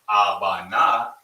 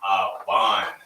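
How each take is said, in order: First: The word ends with an open 'ah' vowel. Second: The word ends on the 'n' consonant. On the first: The speaker calls it wrong. "instead of Abana" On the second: The speaker calls it right. "drop that last ah sound off the end"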